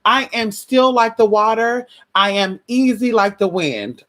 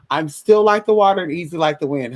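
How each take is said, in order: First: Calm mantra. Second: Said in the usual way. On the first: Shown as a demonstration. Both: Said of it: "I say that all the time".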